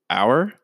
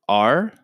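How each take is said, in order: First: It is said with two syllables, rhyming with hour. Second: It is said as one syllable, like are. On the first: "it's pronounced like the hour" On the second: "it is also pronounced like A-R-E"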